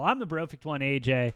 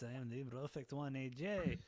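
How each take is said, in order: First: It is spoken in the speaker's ordinary accent. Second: It is spoken with a put-on French accent.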